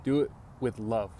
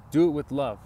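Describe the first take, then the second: First: Said in the usual way. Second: "Do" punched, louder, whole line driven home; louder, stressed "Do it with love"; emphatic repeat. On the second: Shown as a demonstration. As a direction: hammer the point home a second time. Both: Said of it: "here's the key".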